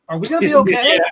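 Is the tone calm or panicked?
panicked. It is said in a panicked, dramatic tone. The speaker calls it right.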